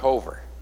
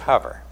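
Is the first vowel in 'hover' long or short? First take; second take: long; short. First: The first vowel is a long O sound. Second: The first vowel is a short 'uh' sound. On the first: The speaker calls it wrong. "so it's not hover" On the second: The speaker calls it right. "It's a short O, ... it's hover, H-U-V-E-R"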